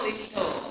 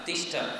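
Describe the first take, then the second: First: The word ends with an added 'o' sound. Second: The word ends with a short 'a' sound. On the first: The speaker calls it wrong. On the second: The speaker calls it right.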